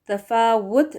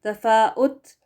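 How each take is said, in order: First: The consonant before the last vowel is w. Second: A glottal stop comes before the last vowel. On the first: The speaker calls it right. "डब्ल्यू के साथ वो करेक्ट है" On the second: The speaker calls it wrong. "हमज़ा पेश लगाकर पढ़ना, ये भी गलत होगा"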